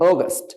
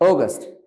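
First: The first vowel is a rounded 'aw' sound. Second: The same.

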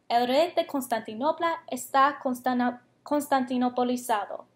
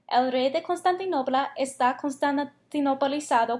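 First: The sentence is said at the slowest pace. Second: The sentence is said at the fastest pace. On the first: "vamos a decirlo más rápido cada vez que lo digamos" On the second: "más rápido cada vez"

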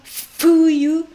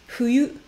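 First: The first consonant is a clear F sound. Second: The first consonant falls between F and H. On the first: The speaker calls it wrong. "je ne dis pas un franchement fuyu" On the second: The speaker calls it right. "mais je dis entre F et H"

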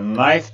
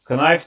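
First: The k at the start is silent. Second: The k at the start is pronounced. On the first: The speaker calls it right. "Knife diye okunuyor. Burada K sessiz K" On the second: The speaker calls it wrong. "Knife diye okunmuyor arkadaşlar"

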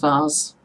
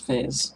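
First: The word is said with a British pronunciation. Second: The word is said with an American pronunciation. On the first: This is how the speaker said it growing up. The speaker calls it wrong. "I grew up saying vase" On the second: This is how Americans say it. The speaker calls it right. "the Americans say it better, it's vase"

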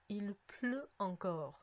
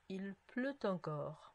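First: Pleut and encore are said without a liaison. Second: Pleut and encore are joined with a liaison. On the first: "と最初の時言いました" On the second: "リエゾンしました"

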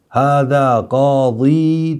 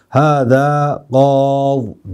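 First: The last word ends with a long ee. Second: The last word ends without a vowel. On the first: The speaker calls it wrong. "Hâzâ gâzî denmez" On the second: The speaker calls it right. "Hâzâ gâz diyeceksin"

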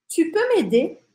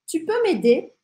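The two takes are said the same way.

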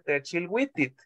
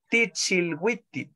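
First: The first vowel is an e sound. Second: The first vowel is an i sound. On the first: This is how most speakers say it. "ella no dice Techilwitit" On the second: This is one singer's personal way of saying it. "ella dice Tichilwitit"

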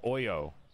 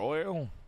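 First: The word ends in a vowel, without an L. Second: The word ends with a clear L sound.

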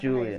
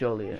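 First: The first syllable sounds like 'joo', as in Juliet. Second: The first syllable sounds like 'joh', with an O. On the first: The speaker calls it wrong. "I said Juliet" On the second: The speaker calls it right. "It's with the O"

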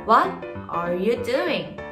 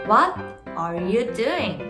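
The two takes are said the same way.

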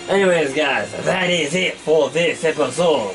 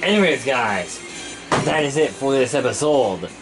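First: It is spoken in a put-on French accent. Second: It is spoken in the speaker's normal accent.

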